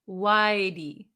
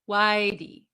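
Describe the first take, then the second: No difference in how they are said.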